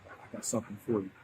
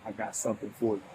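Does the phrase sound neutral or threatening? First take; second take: threatening; neutral. First: It is said in a menacing, threatening tone. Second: It is said in a plain, neutral tone. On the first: The speaker intends to do harm. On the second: A simple offer of a gift.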